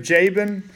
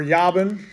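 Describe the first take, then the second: First: Said in the usual way. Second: "Jabin" with a Y sound for the J; Hebrew pronunciation. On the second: Shown as a demonstration. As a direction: say "Jabin" as YAH-bin. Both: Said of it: "if you want the pronunciation".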